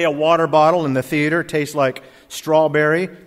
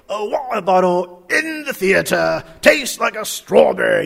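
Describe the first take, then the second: First: It is said in a plain American accent. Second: It is said in a put-on British accent.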